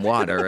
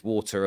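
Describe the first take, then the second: First: "water" said the American way; American-English "water"; American pronunciation. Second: "water" said the British way; British-English "water"; British pronunciation. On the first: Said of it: "learning English from American schools". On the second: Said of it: "those dialect changes". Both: Shown as a demonstration.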